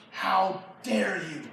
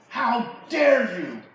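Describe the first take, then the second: First: Slow, measured indignation; contained outrage. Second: Louder, higher, drawn-out indignation; outraged outburst. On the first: Saul rebuking his son Jonathan, slow contained outrage. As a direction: hold the anger in and space each word. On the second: Saul rebuking his son Jonathan, loud outraged outburst. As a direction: let the anger break out on slow words. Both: Acted.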